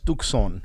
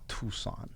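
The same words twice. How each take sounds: First: The C sound is clearly pronounced. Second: The C sound is silent. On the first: The speaker calls it right. "it's Tucson is how you pronounce it" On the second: The speaker calls it wrong. "It's not Tucson. The C is not silent"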